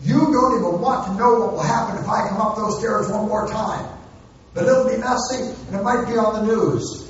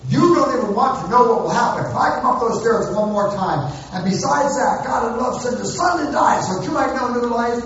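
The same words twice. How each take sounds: First: Parent hollering up the stairs, a little higher; half-hearted yelled warning up the stairs; mock hollered threat. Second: Mock hollered threat. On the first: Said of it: "hollering threats up the stairs". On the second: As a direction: yell it up the stairs, then tack on the gospel. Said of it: "when I'm hollering threats".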